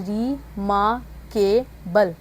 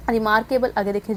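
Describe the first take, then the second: First: "रिमार्केबल" said very slowly, each syllable apart; slow pronunciation demo. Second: Said in the usual way. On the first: Shown as a demonstration. Teacher showing students how "रिमार्केबल" sounds, very slowly. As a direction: stretch out "रिमार्केबल" so every sound is heard. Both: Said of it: "ये इस तरह से इसकी sound बनेगी".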